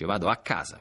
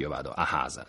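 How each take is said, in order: First: The c in casa is a long double k. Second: The c in casa is a breathy h sound. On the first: The speaker calls it right. "dopo la preposizione A, la C di casa, è raddoppiata" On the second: The speaker calls it wrong. "la C non la aspirano sempre, perché non si dice"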